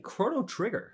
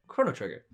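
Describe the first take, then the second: First: The emphasis falls in an odd place. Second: The emphasis falls in the usual place. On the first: The speaker calls it wrong. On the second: The speaker calls it right.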